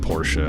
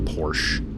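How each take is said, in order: First: The final E is pronounced as an extra syllable. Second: The final E is silent, giving one syllable. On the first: "I can call it Porsche, I guess. I just feels kind of weird to pronounce it like that" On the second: "every single person I've ever known in my life has pronounced it Porsche"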